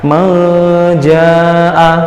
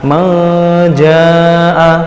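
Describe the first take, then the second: Both takes have the same delivery.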